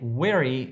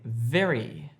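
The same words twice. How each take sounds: First: The word begins with a w sound. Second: The word begins with a v sound. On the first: The speaker calls it wrong. "Don't say very" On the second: The speaker calls it right. "say very"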